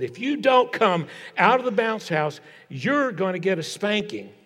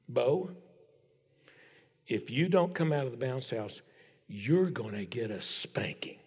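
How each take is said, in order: First: Raised-pitch stern dad's ultimatum. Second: Low, hushed, ominous warning with long pauses; big-guns threat. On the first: Dad orders his son out of the bounce house, stern. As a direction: imitate a father laying down the law, pitched up. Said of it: "getting really stern with him and said". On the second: Dad warns his son in the bounce house, quiet and deadly serious. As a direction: drop almost to a whisper on the threat. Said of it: "pulls out the big guns". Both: Retold or imitated.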